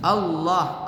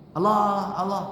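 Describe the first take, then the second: First: Allah with the double l held; correct doubling. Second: Allah with a short single l; no doubling. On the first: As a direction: lean on the doubled l. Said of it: "Harus pakai tasydid". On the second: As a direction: say Allah flat, l not held. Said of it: "Nggak boleh". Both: Shown as a demonstration.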